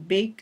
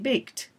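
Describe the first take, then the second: First: The ending is not a plain t sound. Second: The ending is a plain t sound. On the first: The speaker calls it wrong. "instead of saying" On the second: The speaker calls it right. "The T, ... we say"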